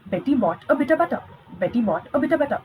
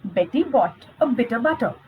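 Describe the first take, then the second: First: Betty bought a bit of butter said fast and quicker each time; fast tongue twister. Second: Said in the usual way. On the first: Shown as a demonstration. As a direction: rattle it off fast, speeding up. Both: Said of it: "let's do one tongue twister here".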